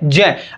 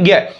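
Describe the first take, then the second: First: The letter is said as j followed by y. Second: The letter is said with the traditional cluster sound. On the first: The speaker calls it right. "पर इसका सही उच्चारण अगर आप देखें तो जय होता है" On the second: The speaker calls it wrong. "पर आप अपन क्या बोलते हैं?"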